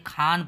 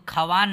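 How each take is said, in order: First: खान as one long syllable, "khaan"; correct silent-wao reading. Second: खवान with the silent वाव sounded as "kha-waan"; wrong spelling pronunciation. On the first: Teacher giving the class the right reading, खान said "khaan", w silent. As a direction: say खान with no w sound at all. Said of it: "बल्कि खान पढ़ेंगे". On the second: Teacher warning readers off a misreading, खवान said "kha-waan". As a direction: say खवान in two syllables, voicing the w. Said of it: "इसको खवान नहीं पढ़ेंगे आप लोग". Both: Shown as a demonstration.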